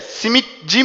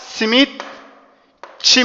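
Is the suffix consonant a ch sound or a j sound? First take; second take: j; ch. First: The suffix begins with a soft j sound. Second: The suffix begins with a hard ch sound. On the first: The speaker calls it wrong. "simitçi mi diyoruz" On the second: The speaker calls it right. "Simitçi diyoruz. İşte C ne yaptı arkadaşlar? Sertleşerek Ç'ye dönüştü"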